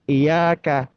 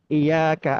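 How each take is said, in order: First: The y sound is single and light. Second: The same.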